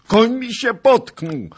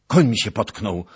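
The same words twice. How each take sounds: First: Very high, loud, drawn-out wail of alarm; panicked cry. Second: Loud, raised cry of alarm; alarmed shout. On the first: Fleeing nobleman to knight about his horse, high panicked yell. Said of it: "zawołał po raz drugi Zagloba". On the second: Nobleman to knight as his horse stumbles, loud shout. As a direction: call out the trouble to your companion. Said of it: "krzyknął Zagloba". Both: A narrator's reading.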